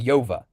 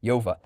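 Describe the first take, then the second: Both takes have the same delivery.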